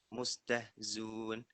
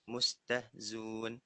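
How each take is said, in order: Both takes have the same delivery.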